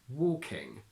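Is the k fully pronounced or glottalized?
full k. The k is fully pronounced.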